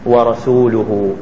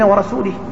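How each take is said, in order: First: The word ends with the nominative case vowel. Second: The word ends with the genitive case vowel. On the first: The Prophet also disowns the idolaters. The speaker calls it right. "إنما هي ورسوله" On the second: God disowns the Prophet too. The speaker calls it wrong. "فعطف النبي صلى الله عليه وسلم على المشركين في البراء"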